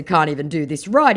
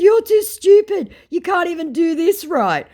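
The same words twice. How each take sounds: First: Said in the usual way. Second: Very high, loud put-down; scornful insult. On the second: Retold or imitated. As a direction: hurl a mocking insult. Insulting retort to the scammer.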